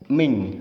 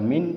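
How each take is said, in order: First: The word ends in an ng sound. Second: The word ends in a clear n sound. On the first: "tidak boleh dibaca ming" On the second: "Tidak boleh dibaca min"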